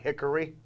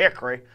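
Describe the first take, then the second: First: The middle vowel is clearly pronounced. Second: The middle vowel is dropped. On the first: The speaker calls it wrong. "We don't pronounce it Hickory" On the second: The speaker calls it right. "The O is silent"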